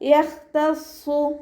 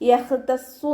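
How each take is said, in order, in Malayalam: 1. 'tassu' ന് മുമ്പുള്ള വ്യഞ്ജനം കുലുക്കമില്ലാതെ പിടിച്ചുനിർത്തിയിരിക്കുന്നു. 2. 'tassu' ന് മുമ്പുള്ള വ്യഞ്ജനത്തിന് പ്രതിധ്വനിക്കുന്ന കുലുക്കമുണ്ട്. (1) "മഖ്റജിലേക്കണ്ട് ചേർത്തി കൊടുക്കുക" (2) "യഹ്തസ്സു എന്ന് പറയരുത്, യഹ് യഹ് എന്ന് പറയരുത്"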